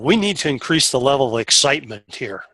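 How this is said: It is said in an excited, lively tone. The words and the feeling match. The speaker calls it right. "the tone in my voice matched what I wanted"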